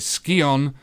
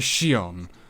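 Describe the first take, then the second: First: The word begins with an sk sound. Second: The word begins with an sh sound. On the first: The speaker calls it right. "it is in fact called a Skion" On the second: The speaker calls it wrong. "not a Shion"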